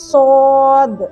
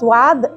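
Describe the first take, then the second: First: The vowel sounds like a heavy 'o'. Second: The vowel sounds like 'a' after a 'w'. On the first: The speaker calls it right. "సరైన పద్ధతిలో దీన్ని సోద్ ఇలా పలుకుతారు" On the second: The speaker calls it wrong. "కొంతమంది సోత్ లేదా స్వాద్ అని పలుకుతారు, కానీ అది కరెక్ట్ కాదు"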